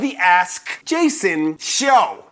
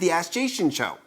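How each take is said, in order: First: Each word is crisply and forcefully separated. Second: The words run together and are slurred. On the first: The speaker calls it right. "enunciated so powerfully and like striking like that" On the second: The speaker calls it wrong. "if I don't, I call it the Ask Jason Show"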